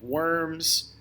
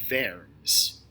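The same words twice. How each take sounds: First: The word starts with a W sound. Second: The word starts with a V sound. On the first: The speaker calls it wrong. "I know it looks like it's the city of Worms" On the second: The speaker calls it right. "in German, W's make V sounds"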